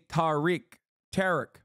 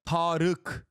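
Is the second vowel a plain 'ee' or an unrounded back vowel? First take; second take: plain ee; back vowel. First: The second vowel is a plain 'ee' sound. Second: The second vowel is an unrounded back vowel. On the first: "in English there is no letter for it, so they say Tarık" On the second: "Tarık is how you say Tarık's name"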